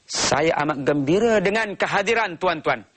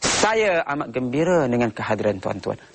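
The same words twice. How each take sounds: First: The stress is on the word tuan-tuan. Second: The stress is on the word saya. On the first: The speaker shows respect for the audience. "dia ingin menunjukkan dia menghormati tuan-tuan" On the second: The speaker puts importance on himself. "Penekanannya saya"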